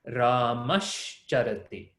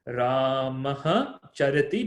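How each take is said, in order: First: The first word ends in an sh sound. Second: The first word ends in a breathy h sound. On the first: "you get that shakara instead of visarga" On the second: "we have visarga followed by chakara"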